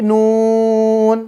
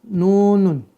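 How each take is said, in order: First: The word stops after one syllable. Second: The word ends with an extra syllable. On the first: The reader pauses on the letter. "kalau dia diwakafkan berarti nun" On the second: This is the letter's full original sound. "kalau kita balikan bunyi asli nunun"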